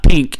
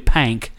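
First: The vowel sounds like the one in 'ink'. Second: The vowel sounds like the one in 'tank'. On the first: The speaker calls it wrong. "Pink is not pink" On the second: The speaker calls it right. "It's actually Pank, which is something that is off the grid pronunciation"

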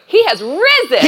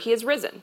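First: It is said with exclamatory excitement. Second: It is said flatly, without excitement.

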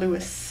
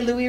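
First: The name is pronounced the English way. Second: The name is pronounced the French way. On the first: The speaker calls it wrong. "not Louis" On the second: The speaker calls it right. "we say Louis Riel"

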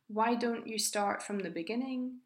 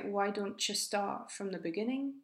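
First: Each word is pronounced fully and separately. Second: The words are reduced and run together.

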